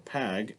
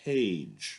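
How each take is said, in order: First: The vowel is a short A sound. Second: The vowel is a long A sound. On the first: The speaker calls it wrong. "it's not page or pag" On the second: The speaker calls it right. "the E makes the A say the long A sound"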